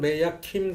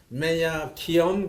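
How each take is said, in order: First: Kim is said as one short syllable. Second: Kim is drawn out into two syllables. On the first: "우리 같으면 메야 킴 그래야 할 텐데" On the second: "그게 미국의 남부 방언이야"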